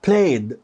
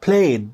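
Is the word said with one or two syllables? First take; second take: one; one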